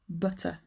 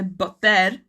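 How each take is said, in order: First: The final syllable has a weak, reduced vowel. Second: The final syllable has a full, strong vowel. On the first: The speaker calls it right. "It's butter" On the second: The speaker calls it wrong. "You don't say butter"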